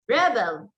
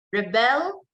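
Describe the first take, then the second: First: "rebel" as a noun, REB stressed, falling after; stress on first syllable. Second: "rebel" as a verb, re-BEL, rising at the end; stress on second syllable. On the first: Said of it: "the stress there is on the first syllable". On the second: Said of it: "the stress there is on the second syllable". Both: Shown as a demonstration.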